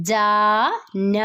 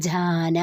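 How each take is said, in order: First: ജാന drawn out syllable by syllable, very slowly; slow spelled reading. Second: Said in the usual way. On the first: Shown as a demonstration. Teacher to students, sounding out a Hindi word very slowly. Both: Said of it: "okay, വായിച്ചോളൂ".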